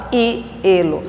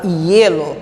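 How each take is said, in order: First: "hielo" broken into two syllables, I then elo; split pronunciation. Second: "hielo" with the ie run together as one glided syllable; one-syllable glide. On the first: Teacher showing students how not to say it, "hielo" split as i-elo. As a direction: say "hielo" wrongly, with a separate I before elo. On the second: Teacher showing students the right way, "hielo" joined as ye-lo. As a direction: say "hielo" as ye-lo, no separate I. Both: Shown as a demonstration. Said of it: "É uma sílaba só".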